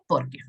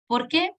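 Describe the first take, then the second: First: "Porque" dropped low, as an answer; low, settled "Porque" that closes the matter. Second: "Por qué" rising high on "qué", as a question. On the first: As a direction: answer "Porque" with a short, falling tune. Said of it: "el por qué de respuesta". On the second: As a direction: ask "Por qué" with the pitch lifting at the end. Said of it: "el por qué de pregunta". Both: Shown as a demonstration.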